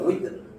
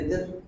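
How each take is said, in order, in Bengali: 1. শব্দটি w ধ্বনি দিয়ে শুরু হয়। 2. শব্দটি b ধ্বনি দিয়ে শুরু হয়। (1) "এটা উইতর, ওয়াও জের উইতর" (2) "আমরা বলি না বেতের"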